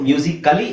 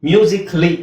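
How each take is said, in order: First: The vowel before 'ly' is fully pronounced. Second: The vowel before 'ly' is dropped. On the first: The speaker calls it wrong. "ಮ್ಯೂಸಿಕಲಿ ಅಂತ ಹೇಳೋ ಅವಶ್ಯಕತೆ ಇಲ್ಲ" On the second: The speaker calls it right. "ಮ್ಯೂಸಿಕ್ಲಿ ಅಂತ ಹೇಳಿದ್ರಾಯ್ತು"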